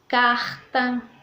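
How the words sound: It is said in a northeastern accent. "que eles falam carta ... O som do R muda"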